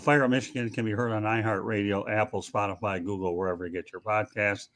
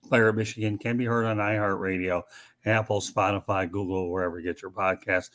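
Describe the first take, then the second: First: It is said fast. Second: It is said slowly.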